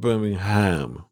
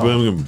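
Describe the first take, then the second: First: The word's ending is pronounced fully and clearly. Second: The word's ending is reduced and mumbled. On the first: The speaker calls it wrong. "It's not Birmingham" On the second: The speaker calls it right. "you basically just mumble to the end of it"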